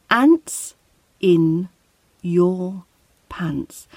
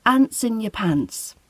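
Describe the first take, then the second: First: Each word separate with a pause between, ending on a whispered pants; slow, separated Ants, in, your, pants; words said one by one. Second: Ants in your pants run together smoothly; one smooth linked Ants in your pants; linked phrase. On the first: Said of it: "Let's listen to the words individually". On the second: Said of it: "when we put it together as a phrase, we say". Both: Shown as a demonstration.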